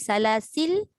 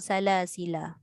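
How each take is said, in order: First: The word ends on a silent final consonant. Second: The word ends on an open a vowel. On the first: "mati salasil" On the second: "ataupun salasila"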